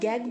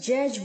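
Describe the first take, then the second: First: It starts with g and ends with g. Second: It starts with j and ends with j. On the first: "ना तो हम गैग बोलेंगे" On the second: "ना ही जनरेट की तरह जैज बोलेंगे"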